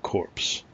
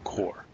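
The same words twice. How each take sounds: First: The final 'ps' sound is pronounced, like 'corpse'. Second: The final 'ps' sound is silent, like 'core'. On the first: The speaker calls it wrong. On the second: The speaker calls it right.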